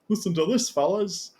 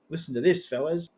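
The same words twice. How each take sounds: First: It is said in an imitated Liverpool accent. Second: It is said in the speaker's ordinary accent.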